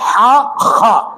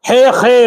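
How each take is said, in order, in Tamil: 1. எழுத்துப் பெயர் 'ah' உயிரில் முடிகிறது. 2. எழுத்துப் பெயர் 'eh' உயிரில் முடிகிறது.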